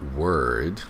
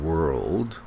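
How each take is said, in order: First: The L sound is left out. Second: The L sound is clearly pronounced. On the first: The speaker calls it wrong. "mispronounce the word world. They say word" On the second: The speaker calls it right. "There's an L in there"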